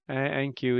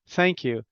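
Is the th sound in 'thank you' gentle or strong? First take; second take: gentle; strong. First: The th sound is soft, with little air. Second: The th sound is strong, with a burst of air. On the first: The speaker calls it wrong. "Thank you is too gentle" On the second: The speaker calls it right. "it needs to be strong"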